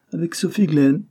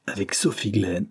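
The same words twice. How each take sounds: First: High, louder echo rising at the end; amazed repeat. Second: Said in the usual way. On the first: A narrator's reading. Repeating the name of the supposed bride, high and astonished. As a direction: throw the name back in disbelief.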